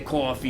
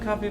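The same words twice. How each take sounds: First: Said with a New York accent. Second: Said with a Minnesotan accent. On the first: The speaker calls it right. "you got to say coffee" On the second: The speaker calls it wrong. "hello, I'm from Minnesota"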